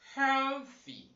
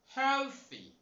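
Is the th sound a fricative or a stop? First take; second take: fricative; fricative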